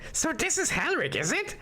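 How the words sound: The voice sounds like a goblin.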